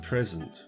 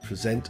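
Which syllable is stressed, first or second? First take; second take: first; second. First: The stress is on the first syllable. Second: The stress is on the second syllable. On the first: It is a noun. "If the stress is on the first syllable, then it's a noun" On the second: It is a verb. "if it's on the second syllable, it's a verb"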